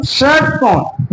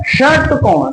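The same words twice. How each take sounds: First: षटकोण stretched out slowly, each sound clear; slow teaching demo of षटकोण; slow drawn-out word. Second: Said in the usual way. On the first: Shown as a demonstration. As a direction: draw out षटकोण so the ष is heard. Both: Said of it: "षटकोण में उच्चारण करें".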